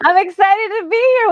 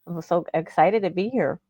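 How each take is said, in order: First: It is said with lively enthusiasm. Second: It is said with little enthusiasm.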